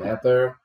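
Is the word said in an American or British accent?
British. It is said in a British accent. "Em inglês britânico"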